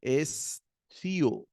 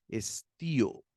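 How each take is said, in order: First: "estío" as "es-thío", with a soft th; drawn-out "estío", soft lisped consonant after the S; soft theta. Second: "estío" with a clear T; careful "estío", T rather than th; hard T after sigma. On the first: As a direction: split it slowly, "estío" with th for the T. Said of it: "Un poco suave, no es una feta". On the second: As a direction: say "estío" as "es-tío", plain T after the S. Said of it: "una sigma acá, la vamos a leer". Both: Shown as a demonstration.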